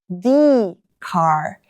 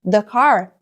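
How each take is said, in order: First: The word 'the' has a long 'thee' vowel. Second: The word 'the' has a short 'thuh' vowel. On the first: It was a remarkable, special car. The speaker calls it right. "para dar bastante ênfase, eu posso falar the car" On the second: It is just an ordinary car. The speaker calls it wrong.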